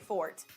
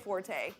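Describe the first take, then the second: First: The word is said with one syllable. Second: The word is said with two syllables. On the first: The speaker calls it right. "you say fort" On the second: The speaker calls it wrong. "you don't say forte"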